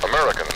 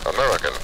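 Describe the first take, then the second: No difference in how they are said.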